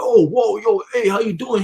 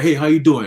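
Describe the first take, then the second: First: Higher, startled and impressed; reply as if caught off guard; startled greeting. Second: Said in the usual way. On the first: Retold or imitated. Everybody answering the greeting, startled.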